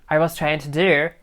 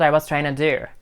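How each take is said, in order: First: Each word is pronounced clearly and separately. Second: The words are run together and shortened.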